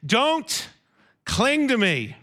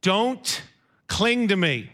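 First: A kind, unhurried Don't cling to me; tender caution, no annoyance; gentle not annoyed. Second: Said in the usual way. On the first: Shown as a demonstration. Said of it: "He doesn't say it 'cause he's annoyed". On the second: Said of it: "Jesus immediately says to her".

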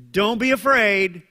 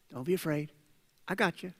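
First: Louder, firm and sure command not to fear; firm reassurance. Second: Softer, gentle and close; gentle reassurance. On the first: Jesus to Jairus against bad news, firm and loud. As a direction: plant it firmly so fear has no room. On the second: Jesus to Jairus in the preacher's own words, softly reassuring. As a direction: say it quietly like a promise. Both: Acted.

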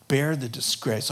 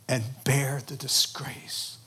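First: Said in the usual way. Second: "bear the disgrace" soft and slow. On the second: Acted. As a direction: let "bear the disgrace" sink slowly, hushed. Solemn hushed close.

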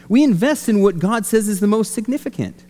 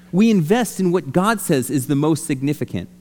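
First: Preacher stating the key line with force; emphatic first take. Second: Said in the usual way. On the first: Shown as a demonstration. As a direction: drive the point home the first time. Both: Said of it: "repeated for emphasis".

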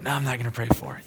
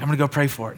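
First: Quick, softer mumbled retreat; second thoughts, rushed under the breath; hasty backing out. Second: Torn indecision. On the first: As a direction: talk yourself out of it. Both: Retold or imitated. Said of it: "doing one of these where I'm like".

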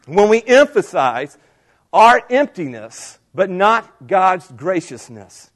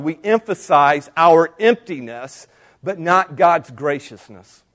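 First: "our" and "not" stressed, last words slow; stressed repeat. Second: Said in the usual way. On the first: Shown as a demonstration. Preacher repeating his point to the congregation, slow stressed "not". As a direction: lean on "our emptiness" and "not", drawing the end out. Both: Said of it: "notice it coming up".

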